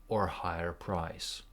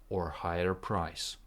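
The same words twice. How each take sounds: The two takes are said the same way.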